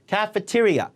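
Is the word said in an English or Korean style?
English. It is said with English stress and sounds. Listeners will understand it. The speaker calls it right. "요 발음대로 그대로 해보세요"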